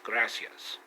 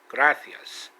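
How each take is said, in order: First: It is said with a pronunciation from Mexico. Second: It is said with a pronunciation from Spain. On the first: "which is gracias" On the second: "is how they pronounce it in, in Spain and not Mexico"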